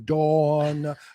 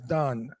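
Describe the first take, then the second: First: The name is said with the Dawn vowel. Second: The name is said to sound like Don. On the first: The speaker calls it right. "Pronounce the W" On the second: The speaker calls it wrong. "He pronounces Dawn as Don"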